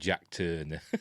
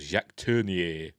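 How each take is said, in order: First: The name is said with English sounds. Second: The name is said with French sounds. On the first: This is how Americans called him. "in America, they just called him" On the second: This is his name as a Frenchman. "he's a Frenchman called"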